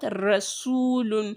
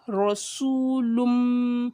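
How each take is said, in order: First: The r sound is light and thin. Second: The r sound is heavy and thick. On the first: The speaker calls it wrong. "it's not Rasulun because Ra is a thick letter" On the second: The speaker calls it right. "so you say Ra, Rasulum"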